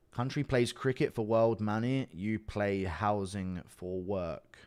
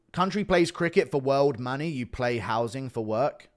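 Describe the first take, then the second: First: "you play housing for work" drawn out very slowly; slow rereading. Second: Said in the usual way. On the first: Real, not acted. Rereads the puzzling message slowly.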